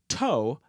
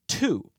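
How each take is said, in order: First: The vowel rhymes with 'go'. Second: The vowel rhymes with 'food'. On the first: The speaker calls it wrong. "we don't pronounce the word as toe" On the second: The speaker calls it right. "but as two"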